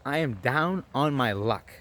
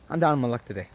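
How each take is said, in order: First: Each word drawn out, "down" stretched; slow, emphatic plea. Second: Said in the usual way. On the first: Retold or imitated. Asking a stranger for change, slow emphatic plea. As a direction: spell out the hardship slowly and deliberately.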